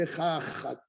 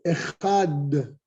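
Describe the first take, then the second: First: The final consonant is pushed out with extra breath. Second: The final consonant is said lightly, without extra breath. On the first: The speaker calls it wrong. "vous avez déformé le echad, si vous le faites comme ça" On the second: The speaker calls it right. "Pas plus"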